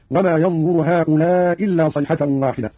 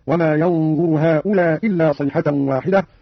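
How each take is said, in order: First: "هؤلاء إلا" with one hamza and lengthened madd; dropped hamza, madd. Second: "هؤلاء إلا" with one hamza and short madd; dropped hamza, short. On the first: Teacher demonstrating Qalun's madd, "هؤلاء إلا" extended over one hamza. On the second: Teacher demonstrating Qalun's qasr, "هؤلاء إلا" with one hamza, unextended. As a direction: drop the final hamza of "هؤلاء" straight into "إلا". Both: Shown as a demonstration. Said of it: "بإسقاط الهمزة الأولى مع القصر والمد".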